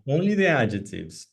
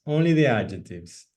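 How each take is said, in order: The two takes are said the same way.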